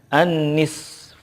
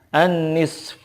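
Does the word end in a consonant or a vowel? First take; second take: consonant; consonant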